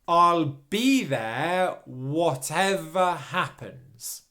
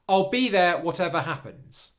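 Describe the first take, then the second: First: The sentence is spoken slowly. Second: The sentence is spoken at normal speed.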